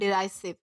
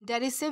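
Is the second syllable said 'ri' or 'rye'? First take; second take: rye; ri. First: The second syllable has a long 'eye' sound. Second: The second syllable has a short 'i' sound. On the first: "दोनों तरीके से pronounce किया जा सकता है" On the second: "डेरिसिव या फिर डेराइसिव दोनों तरीके से प्रोनाउंस किया जा सकता है"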